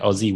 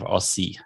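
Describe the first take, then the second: First: The middle sound is a z, Australian style. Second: The middle sound is an s, American style.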